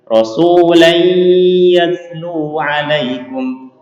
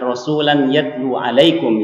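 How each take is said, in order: First: The n before y is nasalized and held. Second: The n before y is not nasalized or held. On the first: The speaker calls it right. "yang benar. ... Harus digunakan" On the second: The speaker calls it wrong.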